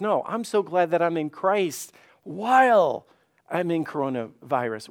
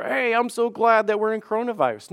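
First: "while" stretched out and stressed; corrective emphasis. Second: Higher, chirpy mock rejoicing; falsely cheerful, pitched up; mock gladness. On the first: Acted. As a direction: correct it firmly, lingering on "while". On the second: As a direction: act out misplaced cheer about bad news. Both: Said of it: "God's not saying you need to just rejoice".

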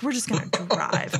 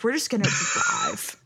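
First: Said in the usual way. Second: Dazed singsong. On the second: Retold or imitated. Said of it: "and I was like".

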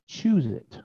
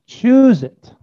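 First: Soft, restrained urging; hushed command. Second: High, loud insistence; raised-voice divine order; emphatic command. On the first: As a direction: say it quietly, as God prompting. God's command voiced, first take. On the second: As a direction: push it out high and forceful. God's command voiced, repeated forcefully. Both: Acted.

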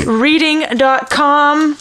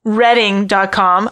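First: "reading" said like the verb, long ee, REE-ding, slowly; "reading dot com" with a long ee vowel, a misreading; mispronounced Redding. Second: "Redding" with a short e, RED-ding, said slowly; "Redding dot com" with a short e, like red; corrected pronunciation. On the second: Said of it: "I totally lied to you". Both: Shown as a demonstration.

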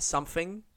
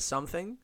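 First: "something" said as "sumfing". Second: Said in the usual way. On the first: Shown as a demonstration. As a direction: swap the TH in "something" for an F. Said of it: "you know how some people say". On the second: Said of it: "instead of something".

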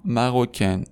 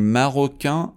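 First: مروکن falling onto a sounded N; French feminine مروکن with full final n; non-nasal ending. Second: مروکن rising to a nasal vowel, no N; French masculine مروکن, nasalized ending. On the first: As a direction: end مروکن on a clear "-ken". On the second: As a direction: end مروکن through the nose, silent n. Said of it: "به خاطر اینکه توی بینیه". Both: Shown as a demonstration.

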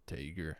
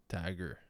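First: Tager as "TAY-ger"; trying a pronunciation. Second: Tager as "TAG-er"; short a in Tager, like "tag her"; trying a pronunciation. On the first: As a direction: say Tager with a long a and hard g. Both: Shown as a demonstration. Host sounding out a model's surname, trying a pronunciation.

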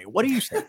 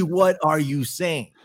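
First: Incredulous. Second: Drawn out and pointed; slow, emphatic disbelief. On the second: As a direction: press each word in disbelief. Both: Real, not acted. Incredulous at Kari Lake's threat.

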